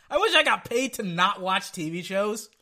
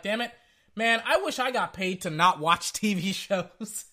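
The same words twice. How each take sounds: First: Said in the usual way. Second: Laughing. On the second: Retold or imitated. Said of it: "I'm like".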